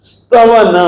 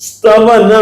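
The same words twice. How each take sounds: Both takes have the same delivery.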